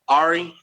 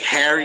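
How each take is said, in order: First: The h sound at the start is dropped. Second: The h sound at the start is pronounced. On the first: The speaker comes from a poor area. "when they don't say it, is because they're from like the slums of England" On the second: The speaker is well educated. "when people from London say H is because they're very educated"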